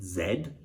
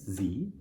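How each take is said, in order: First: The letter is said the British way, zed. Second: The letter is said the American way, zee.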